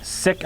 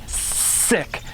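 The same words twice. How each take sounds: First: Said in the usual way. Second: "sick" drawn out slowly, squeezed; squealed sick. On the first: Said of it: "instead of going sick". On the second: Shown as a demonstration. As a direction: stretch "sick" under hard pressure. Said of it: "I'm really loading it up hard".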